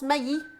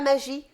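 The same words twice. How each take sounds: First: The name is said with German pronunciation. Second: The name is said with French pronunciation. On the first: The speaker calls it right. "Moi, je prononce Maggi ... c'est allemand" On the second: The speaker calls it wrong. "et pas Maggi"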